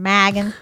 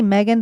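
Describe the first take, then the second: First: The name is said in a Southern accent. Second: The name is said in a plain accent. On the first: "with a southern Megan, southern accent" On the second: "I want to say Megan"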